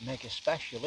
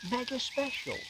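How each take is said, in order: First: Said in the usual way. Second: High, soft incredulous echo; imitated disbelief. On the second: Photographer astonished at the storyteller's doubt, high incredulous echo. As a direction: throw the words back high and hushed, as if astonished.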